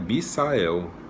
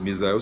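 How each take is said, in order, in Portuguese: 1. A consoante do meio tem som de s, sem vibração. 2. A consoante do meio tem som de z, com vibração. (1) "tá escrito Mi, M I S A E L, então é Misael" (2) "Se fosse Misael seria M I Z A"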